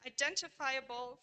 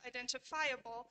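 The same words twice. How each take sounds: First: "identifiable" stressed on DEN, as in identify; "identifiable" as i-DEN-tifiable; stress preservation. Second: "identifiable" stressed on FI; "identifiable" as identi-FI-able, unlike its base; stress non-preservation. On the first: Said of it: "syllable that receives primary stress in the derivative". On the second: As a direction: shift the main stress of "identifiable" onto FI. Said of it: "the same syllable that carries primary stress". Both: Shown as a demonstration.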